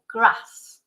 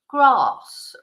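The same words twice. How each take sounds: First: The vowel is a short flat a. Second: The vowel is a long broad a. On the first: This is the northern way of saying it. "you will always say a, a short A" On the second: This is the southern way of saying it. "whereas in the south, of course, they will say"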